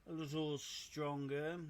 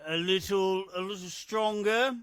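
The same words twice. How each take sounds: First: Said in the usual way. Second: A little stronger, said louder and higher; punchy repeat. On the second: Acted. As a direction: hit it hard and bright, like announcing a power-up. Repeating the character's line.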